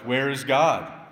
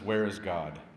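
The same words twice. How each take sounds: First: It is said with a raised voice. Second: It is said at normal loudness.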